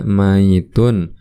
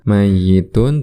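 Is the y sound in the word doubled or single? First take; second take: single; doubled. First: The y is single with no vowel after it. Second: The y is doubled and followed by an i. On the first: "dengan yaknya disukunkan" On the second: "dengan tasydid dan dibaca kasroh yaknya"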